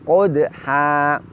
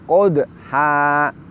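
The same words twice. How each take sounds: First: The d sound is light and thin. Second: The d sound is heavy and thick. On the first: The speaker calls it right. "bibir kita sedikit mundur seperti orang yang tersenyum" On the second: The speaker calls it wrong. "Tidak boleh yang demikian"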